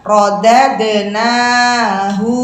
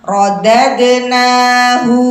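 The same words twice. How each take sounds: First: The final hu vowel is drawn out long. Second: The final hu vowel is short. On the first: The speaker calls it wrong. "yang demikian salah karena hu di sini pendek" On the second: The speaker calls it right. "hunya pendek ya"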